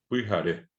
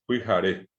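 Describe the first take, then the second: Both takes have the same delivery.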